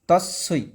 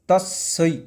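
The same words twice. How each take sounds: Both takes have the same delivery.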